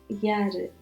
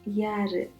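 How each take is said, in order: The two takes are said the same way.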